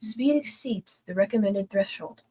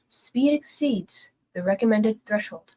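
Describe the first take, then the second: First: It is said at a faster pace. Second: It is said at a slower pace.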